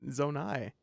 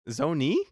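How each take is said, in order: First: The word ends with an 'eye' sound. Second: The word ends with an 'ee' sound. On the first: The speaker calls it right. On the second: The speaker calls it wrong. "Stampy says Zone E. Ew"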